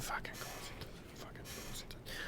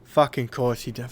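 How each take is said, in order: First: Whispered curse under the breath. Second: Said in the usual way. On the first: Acted. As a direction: hiss the curse to yourself.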